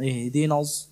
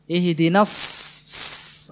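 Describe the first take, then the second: First: The s-sound is cut off with the air held. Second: The s-sound is hissed with the air flowing. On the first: The speaker calls it wrong. "Jadi ditahan udaranya" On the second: The speaker calls it right. "ada aliran nafasnya"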